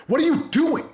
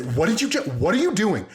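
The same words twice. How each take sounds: First: High-pitched exasperated parent outburst; mad parent yelling. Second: High, incredulous mock outburst; mad-sounding happy praise. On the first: Acted. Dad telling kids off for being shitty, mock angry yell. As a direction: snap at the kids in a high, strained voice. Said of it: "we yell at them and we get mad at them". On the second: Dad jumping up at kid's good deed, elated mock outrage. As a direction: sound furious but be thrilled. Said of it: "match the energy of getting mad, but I'm happy".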